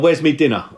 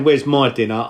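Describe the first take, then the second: First: The word before dinner sounds like 'me'. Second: The word before dinner sounds like 'my'. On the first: The speaker is working class. "or I'd say" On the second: The speaker is not working class. "I wouldn't say"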